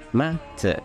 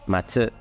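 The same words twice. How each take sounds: First: The pitch starts high and drops on the second syllable. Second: The pitch stays flat across both syllables. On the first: The speaker calls it right. "Ma alto, Tsu baixo" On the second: The speaker calls it wrong. "sendo flat, você vai estar pronunciando errado"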